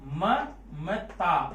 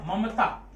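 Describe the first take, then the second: First: Very slow, syllable by syllable, falling at the end; drawn out slowly. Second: Said in the usual way. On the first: Shown as a demonstration. Teacher stretching Mamata to count its syllables. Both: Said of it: "अब इसको आप कैसे पढ़ते हैं?".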